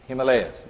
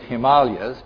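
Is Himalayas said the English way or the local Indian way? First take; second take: English; Indian. First: It is said the usual English way. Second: It is said the way locals in India say it. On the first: This is the familiar everyday way of saying the name. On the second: This is how people there say the name. "over there they pronounce it Himalayas"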